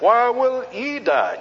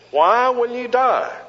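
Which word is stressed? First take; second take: ye; why. First: The word ye carries the main stress. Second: The word why carries the main stress. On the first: It singles out the listener personally. "And then turning to the little pronoun you" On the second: It asks what reason the listener has for dying. "He emphasized the first word"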